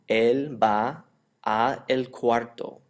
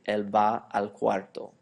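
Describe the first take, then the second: First: 'A' and 'el' are said as separate words. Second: 'A' and 'el' merge into one syllable, 'al'. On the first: "there are two vowels right next to each other" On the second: "it's much easier to pronounce. It flows nicely"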